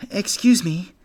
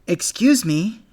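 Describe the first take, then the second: First: Put-on high, loud little boy's call; forceful. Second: Higher and louder than the first try; a little louder. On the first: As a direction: push it out as firmly as you can. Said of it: "as forcefully as a young bunny can". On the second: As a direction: raise the voice to be heard. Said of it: "a little louder". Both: A narrator's reading.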